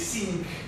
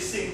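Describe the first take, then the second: First: The vowel is a long E sound. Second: The vowel is a short I sound. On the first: "we say sink ... these are long E sounds" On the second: "we don't say sink"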